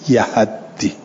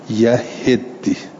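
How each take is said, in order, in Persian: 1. هم هجای اول و هم هجای دوم مصوت a دارند. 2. هجای اول a دارد، هجای دوم i. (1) "به فتح یا اوها و تشدید دال" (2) "به فتح الیا و کسر الها و تشدید دال"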